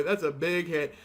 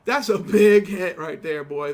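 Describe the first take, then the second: First: Said in the usual way. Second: Hyped. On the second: Real, not acted. Reacting to a big game hit.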